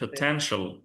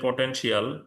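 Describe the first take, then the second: First: The first vowel is a reduced schwa. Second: The first vowel is a full vowel. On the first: The speaker calls it right. "but it should be potential, এই যে শোয়া sound প" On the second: The speaker calls it wrong. "আমরা বলি potential"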